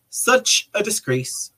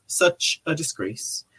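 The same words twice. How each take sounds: First: Said in the usual way. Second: Dropped to a soft, slow echo; host softly echoing the quote; softer echo. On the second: Shown as a demonstration. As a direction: let the repeat fall away quietly. Rereading Trump's repeated phrase.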